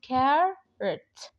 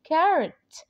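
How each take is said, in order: First: Carrot drawn out slowly; slow model word. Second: Carrot repeated louder and higher; emphatic repeat. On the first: (نطق carrot ببطء) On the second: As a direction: punch carrot for the learner. (تكرار carrot بصوت أعلى ونبرة مرتفعة) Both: Shown as a demonstration. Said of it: "زي كلمة carrot".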